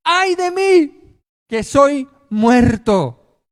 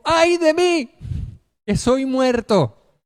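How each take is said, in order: First: High, slow anguished wail; terrified cry. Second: High slow anguished cry; terrified cry. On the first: Preacher voicing Isaiah before God, terrified slow wail. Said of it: "él gritó aterrorizado". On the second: Preacher reliving Isaiah's cry, high anguished wail. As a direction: wail it as a man undone. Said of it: "Isaías dijo". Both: Acted.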